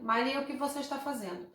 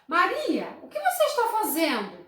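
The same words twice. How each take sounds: First: It is said flat, without intonation. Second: It is said with lively questioning intonation.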